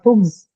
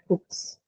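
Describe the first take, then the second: First: The word ends with a voiced z sound. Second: The word ends with a voiceless s sound. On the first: The speaker calls it wrong. "Not hooks" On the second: The speaker calls it right. "the sir sound"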